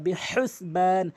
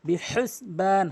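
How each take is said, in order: The two takes are said the same way.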